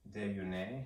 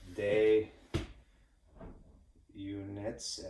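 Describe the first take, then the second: First: The word is said in a French-like way. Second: The word sounds like English 'units'. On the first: The speaker calls it right. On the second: The speaker calls it wrong.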